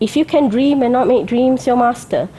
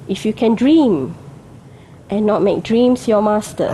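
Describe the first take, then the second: First: It runs on with no pause after dream. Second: There is a pause after dream.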